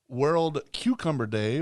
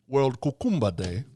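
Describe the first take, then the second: First: It is said in the speaker's plain accent. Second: It is said in an imitated Jamaican accent.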